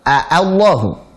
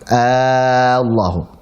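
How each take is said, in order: First: The opening has a full glottal catch. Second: The opening vowel is held very long. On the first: "Kalau hamzah yang benar tahqiq" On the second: "diganti menjadi alif maka dipanjangkan enam harakat"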